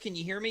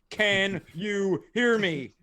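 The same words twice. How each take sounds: First: It is said in a relaxed, natural voice. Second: It is said in a stiff, robotic voice. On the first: The speaker calls it right. "it could have just been, "Hey guys" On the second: The speaker calls it wrong. "using this speech pattern like a robot"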